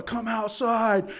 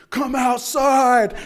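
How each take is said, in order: First: Raised, slow call out; milder retold yell. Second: High, loud, slow yell; retold scream. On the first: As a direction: call him out, less force. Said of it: "I'm yelling". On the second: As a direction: bellow it into the rainy night.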